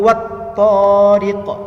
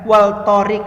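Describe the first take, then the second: First: The L merges into the following T sound. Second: The L sound is pronounced clearly. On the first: The speaker calls it right. "bukan wal to, tapi wat tariq" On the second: The speaker calls it wrong. "Wal torik, bukan kan?"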